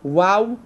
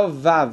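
First: It begins with a w sound made with both lips. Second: It begins with a v sound made with lip and teeth. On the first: This is the true original pronunciation of the letter. The speaker calls it right. "הוו המזרחית. וואו ולא וו" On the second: This pronunciation actually belongs to a different letter. The speaker calls it wrong. "מי שעושה וו זה לא וו, זה וט"

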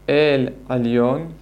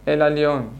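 First: The first vowel is held long, unhurried. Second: The first vowel is rushed and short. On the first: The speaker calls it right. "במקום להגיד" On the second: The speaker calls it wrong. "הם אומרים... הם ממהרים"

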